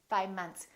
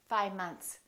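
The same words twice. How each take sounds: First: The V sound almost disappears. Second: The V sound almost disappears.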